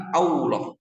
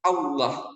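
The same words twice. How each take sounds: First: Allah said as "auloh", W glide; Allah with a wrong rounded W. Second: Allah with a heavy lam, no W; thick Allah, plain vowel; correct thick Allah. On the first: Teacher contrasts wrong Allah, W glide. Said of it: "bukan Allah". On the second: Teacher reminds the right Allah, thick lam. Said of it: "Ingat, Allah". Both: Shown as a demonstration.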